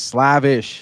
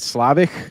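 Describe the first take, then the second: First: The name ends with an 'sh' sound. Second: The name ends with a 'k' sound. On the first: The speaker calls it right. "no, it's Slavish" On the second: The speaker calls it wrong. "I didn't know how to pronounce it. I just said Slavic"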